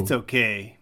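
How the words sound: It sounds unimpressed, like the speaker dislikes it.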